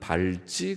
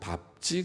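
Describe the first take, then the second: First: The final cluster is read the non-standard way. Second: The final cluster is read the standard way. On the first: The speaker calls it wrong. "밟지 그렇게 읽지 않고" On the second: The speaker calls it right. "밟지 그렇게 읽습니다"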